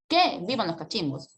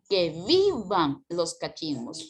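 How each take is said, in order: First: The stress falls on the first word. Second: The stress falls on the verb. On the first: The speaker calls it wrong. "Si coloca acento en el que, mira cómo suena" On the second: The speaker calls it right. "el verbo se roba toda la entonación"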